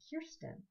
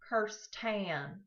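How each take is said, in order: First: The name is said the Swedish way. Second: The name is said the Texan way. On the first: "I suddenly became Swedish" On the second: "in hot and humid Houston, Texas, suddenly became"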